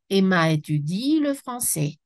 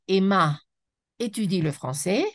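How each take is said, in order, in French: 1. Emma et étudie sont liés sans pause. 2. Emma et étudie sont séparés par une pause. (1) "je dois dire" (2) "je ne prononce pas"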